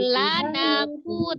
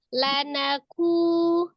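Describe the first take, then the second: First: The pitch rises on the syllable na. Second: The pitch stays level on the syllable na. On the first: The speaker calls it wrong. "Jangan lanaku" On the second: The speaker calls it right. "tapi lanaku"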